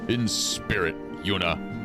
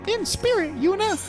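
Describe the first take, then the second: First: It is read in the ordinary reading voice. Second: It is read in a put-on character voice.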